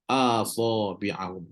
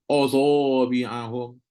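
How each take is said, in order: First: The first vowel sounds light and open, like a. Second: The first vowel sounds heavy and rounded, like o. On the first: The speaker calls it right. "Kena baca a" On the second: The speaker calls it wrong. "tiba-tiba automatik jadi o"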